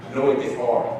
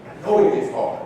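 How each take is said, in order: First: Said in the usual way. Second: Higher, airy echo of I know it gets hard; breathy empathetic repeat. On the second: Shown as a demonstration. Speaker empathizing with the conference audience, airy echo. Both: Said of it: "repeated line".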